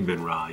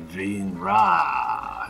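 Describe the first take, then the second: First: The name is said short and clipped. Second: The name is said longer and drawn out. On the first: "You don't say Venra" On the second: "you say Venra. It's sort of this longer"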